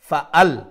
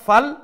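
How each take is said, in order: First: A strong glottal stop separates the two syllables. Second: The glottal stop is dropped, merging into one syllable. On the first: The speaker calls it right. "আর একটা হইছে ফা আল" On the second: The speaker calls it wrong. "একটা ফাল"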